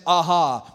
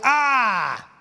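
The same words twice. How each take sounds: First: Said in the usual way. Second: Sharp scornful "Ah!" pitched higher; sneering crowd jeer; vicious mocking jeer. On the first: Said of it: "it just sounds almost comical". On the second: Shown as a demonstration. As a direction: spit out "Ah!" like a cruel taunt. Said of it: "No, it, it was like".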